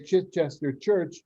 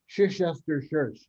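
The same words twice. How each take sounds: First: The words are pronounced in the standard way. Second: The words are pronounced with distorted sounds. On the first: The speaker calls it right. "they were asked to say" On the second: The speaker calls it wrong. "which they mispronounced as"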